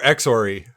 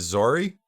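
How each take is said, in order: First: The word begins with an eks sound. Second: The word begins with a z sound. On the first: "or Exori?" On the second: "I also don't know how to pronounce this one"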